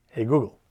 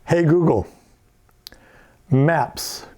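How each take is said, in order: First: Said in the usual way. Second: Loud clear command to the assistant. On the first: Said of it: "which is". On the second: Shown as a demonstration. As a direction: call out the wake word. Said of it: "and now if I say".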